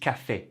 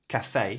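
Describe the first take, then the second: Both takes have the same delivery.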